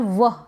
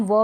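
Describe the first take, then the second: First: वह with a breathed h after the w; second variant. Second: व as a bare v-w sound with open vowel; first variant. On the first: Teacher gives the other reading of WH, aspirated वह. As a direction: add a puff of h in वह. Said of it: "इस तरीके से भी पढ़ते हैं". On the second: Teacher gives one reading of WH, plain व. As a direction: say व with no breath after it. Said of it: "व भी पढ़ते हैं". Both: Shown as a demonstration.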